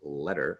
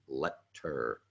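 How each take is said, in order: First: The middle consonant merges into a D-like sound. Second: The middle consonant is a clear T sound. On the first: "somehow it becomes letter" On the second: "as opposed to letter"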